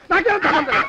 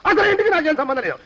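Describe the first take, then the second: First: Higher, frantic protest rising at the end; panicked denial. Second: Protesting, falling at the end; firmly disown any connection; agitated denial. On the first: Disowning the house as police loom, panicked denial. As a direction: wail the denial in alarm. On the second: Disowning any link with the house, agitated denial. Denying link, first of escalating takes. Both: Acted.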